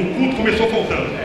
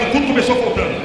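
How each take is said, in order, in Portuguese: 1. A frase é dita em volume normal. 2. A frase é dita bem mais alto. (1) "Diga assim comigo" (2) "Mais alto"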